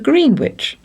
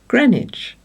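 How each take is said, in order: First: Every letter is sounded, as spelled. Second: It is shortened, with the w silent. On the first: This is how the spelling suggests it is said. The speaker calls it wrong. "tourists very sensibly asking for boat tickets to Greenwich" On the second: This is how it is actually said. The speaker calls it right. "told that it is pronounced Greenwich"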